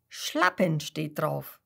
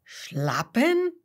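First: Slow confirmation. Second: Puzzled question. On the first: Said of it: "Seppel nickt". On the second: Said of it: "fragt Kasper". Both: A narrator's reading.

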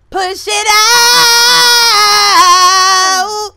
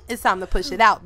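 First: Drawn-out, straining "out" shout; birth-coach holler; loud labor coaching. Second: Said in the usual way. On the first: Pretend. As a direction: stretch out into a long high yell. Calling out a labor push.

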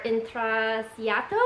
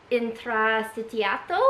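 First: "intrasiato" with a plain "s" sound; slow second guess at "intrasiato", unsure; alternative pronunciation. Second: "intrasciato" sounded out slowly; first careful try at "intrasciato", with the extra "sh" sound; tentative pronunciation. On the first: Vlogger offering another guess at the Italian name, tentative "intrasiato". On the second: Vlogger unsure of the Italian braiding name, tentative "intrasciato". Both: Real, not acted. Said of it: "don't know how to pronounce it".

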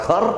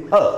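First: Her with the final R pronounced; R sounded. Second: Her as huh, R dropped; silent R. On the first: Teacher shows the wrong her with R. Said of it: "the right pronunciation is her". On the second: Teacher models her with the R silent. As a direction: say her with no final r. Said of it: "not her". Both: Shown as a demonstration.

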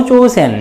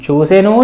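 First: చూసెన్ closed on a bare n; చూసెన్ with no vowel after n; vowelless final n. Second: చూసెను ending on a voiced u; full final ను. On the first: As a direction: drop the u, end చూసెన్ on n. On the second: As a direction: say the whole ను in చూసెను. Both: Shown as a demonstration. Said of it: "ఎట్లా ఉన్నా పర్వాలేదు".

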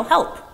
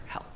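First: High, loud pretend cry for help; demonstrated yell. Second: Softer, near-whispered instruction; demonstrated hushed voice. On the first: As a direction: call out as if in trouble. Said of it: "we would yell". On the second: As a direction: drop the volume to model a whisper. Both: Shown as a demonstration.

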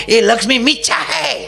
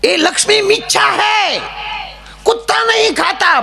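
First: Higher, mildly hollered sermon parody; mock preacher cry. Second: Very high-pitched shouted sermon parody; mock preacher scream. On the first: Comic mimics morning TV gurus giving advice, mock preacher cry. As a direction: imitate a TV guru crying out advice. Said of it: "આવો રાયડું નાખતા હોય". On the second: Comic mimics gurus who scream their advice, high mock screech. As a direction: screech it out like an overblown TV guru. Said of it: "અમુક તો બહુ રાયડું નાખે".

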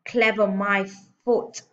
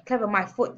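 First: Loud, raised, broken-up scoff; shouted. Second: Milder, connected scoff; shouted. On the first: Headmistress scoffs at praise of father, shouting. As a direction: punch the words with a gap before "foot". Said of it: "he shouted". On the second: Headmistress scoffs at praise of father, mild shout. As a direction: run it together with moderate force. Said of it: "the Trunchbull shouted". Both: A narrator's reading.

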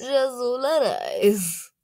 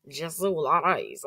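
First: Loud, drawn-out mock Italian; Italian accent. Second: Mock Russian reading of the name; Russian accent. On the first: Vlogger echoing a translator voice, big slow Italian accent. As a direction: ham up the name in Italian, high and slow. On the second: Vlogger trying out languages, playful Russian accent.

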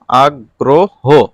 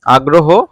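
First: আগ্রহ very slow, drawn out as আগ-গ্রো-হো; stretched pronunciation. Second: Said in the usual way. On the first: Shown as a demonstration. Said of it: "একটু বাড়িয়ে বলতে হয়". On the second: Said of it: "এটার উচ্চারণ দেখে নাও".

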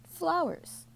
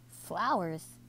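First: High falling one-word reveal; teasing announcement. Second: Mildly incredulous echo at usual volume; incredulous cry. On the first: Granddad answers Sophie's dinner question, high teasing announcement. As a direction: announce it high, then drop. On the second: Sophie echoes Granddad's dinner answer, mild disbelief. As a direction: question it with a brief lift, then fall. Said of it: "cried Sophie". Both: A narrator's reading.

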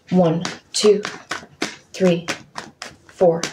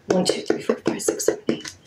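First: Said in the usual way. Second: Whispered counting under the breath. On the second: Real, not acted. Whispering a count while shuffling the deck. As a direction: count the cards in a breathy hush.

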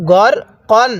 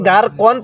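First: গর with a short clipped vowel, no long আ; correct short vowel. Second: গার with a stretched long আ, the mistake; wrong drawn vowel. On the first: Teacher gives students the right reading after the mistake, short vowel. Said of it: "তাহলে কিভাবে পড়তে হবে?". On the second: Teacher shows students the common wrong reading, long vowel. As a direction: demo the error গার কন with a long আ. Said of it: "তাহলে পড়াটা সহি শুদ্ধ হবে না". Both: Shown as a demonstration.

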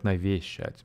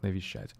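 First: Навещать with a full solid ве; not this: навещать with a hard ве; the wrong way; wrong version. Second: Навещать with ве softened toward ви; the reduced middle syllable in навещать; the right way; right version. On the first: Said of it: "I'm not saying". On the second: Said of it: "more like". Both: Shown as a demonstration.

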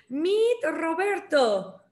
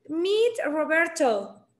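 First: Roberto with a trilled Spanish R; rolled Spanish R. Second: Roberto with an untrilled English R. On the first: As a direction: say "Roberto" the Mexican way, rolling the R. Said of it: "Yo te pronuncio la R". (Roberto con erre vibrante mexicana) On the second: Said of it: "si puedes pronunciarlo en inglés". (Roberto con erre inglesa, sin vibrar) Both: Shown as a demonstration.

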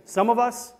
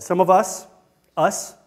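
First: Said in the usual way. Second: "us" picked out and repeated after a pause; stress on US. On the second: Shown as a demonstration. Speaker pointing out to the class he said us, not you, stressing "us". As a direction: lean on "us", then let it stand alone. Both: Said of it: "notice what I just said".

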